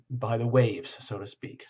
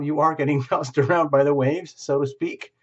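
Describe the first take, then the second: First: Said in the usual way. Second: Laughing through the words, a bit louder. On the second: Real, not acted. Tarot reader laughing while telling the viewer. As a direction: chuckle your way through the phrase. Laughs mid-phrase, repeats it.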